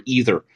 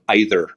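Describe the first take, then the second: First: "either" said EE-ther; EE-ther pronunciation. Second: "either" said EYE-ther; EYE-ther pronunciation. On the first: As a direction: start "either" with a long E, as in see. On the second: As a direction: start "either" with a long I, as in eye. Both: Shown as a demonstration. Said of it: "we disagree on the pronunciation".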